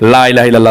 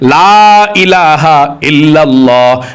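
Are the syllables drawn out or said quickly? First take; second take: quickly; drawn out. First: The words are said quickly without drawing out. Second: The words are drawn out slowly in one breath. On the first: The speaker calls it wrong. "অনেকে পাঠ করে" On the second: The speaker calls it right. "এভাবে টান দিয়ে করতে হবে"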